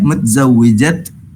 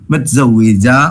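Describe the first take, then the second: First: The word ends with a final t sound. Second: The word ends in a vowel, no t. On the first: This is the full written form. "മുത്സവ്വിജത്ത് എന്ന് നിങ്ങൾ എഴുതും" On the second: This is the form used when stopping. "Stop ചെയ്യുന്ന സമയത്ത്, അതായത് പറയുമ്പോൾ മുത്സവ്വിജ എന്ന് പറയും"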